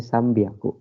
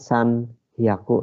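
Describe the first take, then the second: First: The second part begins with a b sound. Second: The second part begins with an h sound. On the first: The speaker calls it right. "Khusus pengucapan menjadi sambiaku" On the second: The speaker calls it wrong. "Harusnya kan san hyaku"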